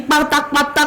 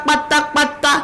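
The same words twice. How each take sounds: The two takes are said the same way.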